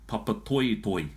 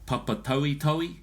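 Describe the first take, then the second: First: The vowels are pronounced as pure Māori vowels. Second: The vowels are pronounced the English way. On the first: The speaker calls it right. "it should be Papatoetoe because of the o in there" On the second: The speaker calls it wrong. "if you have"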